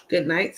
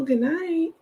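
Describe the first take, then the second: First: Said in the usual way. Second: Good night lifted high; playful high sign-off; sing-song good night. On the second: Shown as a demonstration.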